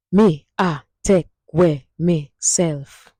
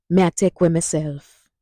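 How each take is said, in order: First: Slow, syllable by syllable in Jamaican Patois; slow Patois demo. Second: Jamaican Patois phrase at normal speed; Patois at normal pace. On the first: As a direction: spell the Patois phrase out slowly for learners. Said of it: "Hear that?". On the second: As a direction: say it naturally for the class to repeat. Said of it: "Say it with me now". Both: Shown as a demonstration.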